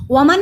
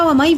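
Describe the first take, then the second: First: वमन with the n sounded; unmerged noon. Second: वमई with the n silent, gliding into y; no nasal sound in वमई; merged noon. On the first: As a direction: say वमन ending on a clear n. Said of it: "वमन नहीं पढ़ा". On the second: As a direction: drop the n and end वमई on a y glide. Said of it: "वमई पढ़ा". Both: Shown as a demonstration.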